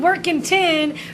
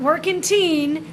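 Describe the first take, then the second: First: The last syllable has a short 'i' vowel. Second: The last syllable has a long 'ee' vowel. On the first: The speaker calls it right. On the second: The speaker calls it wrong.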